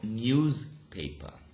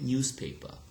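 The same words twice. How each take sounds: First: The middle consonant is a voiced z sound. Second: The middle consonant is a voiceless s sound. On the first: The speaker calls it wrong. "not newspaper" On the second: The speaker calls it right. "so it becomes what? It becomes s"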